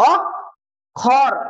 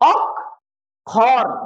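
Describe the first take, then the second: No difference in how they are said.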